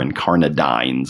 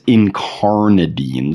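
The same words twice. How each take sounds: First: The last syllable rhymes with shines. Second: The last syllable does not rhyme with shines.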